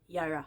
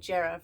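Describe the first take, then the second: First: The word begins with a Y sound. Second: The word begins with a J sound. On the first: The speaker calls it right. "the J is a Y" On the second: The speaker calls it wrong. "I was pronouncing it Jera for a long time"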